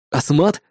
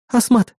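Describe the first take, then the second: First: Exhaled disbelief. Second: High-pitched assistant, falling tune; assistant's answer. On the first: Hero echoes the assistant's answer, low questioning disbelief. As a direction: lower echo question, rising. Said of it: "выдохнул я". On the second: Assistant identifies the weapon for hero, high factual answer. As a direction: state the name as a plain fact. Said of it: "ответила Эрис". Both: A narrator's reading.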